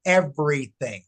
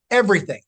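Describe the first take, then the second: First: Said in the usual way. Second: "Everything." repeated louder and higher; emphatic repeat. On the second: Shown as a demonstration. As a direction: punch "Everything." harder on the repeat. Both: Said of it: "What should you do?".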